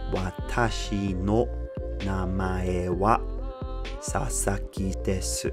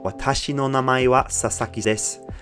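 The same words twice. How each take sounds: First: The sentence is read slowly and carefully. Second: The sentence is read at normal conversational speed.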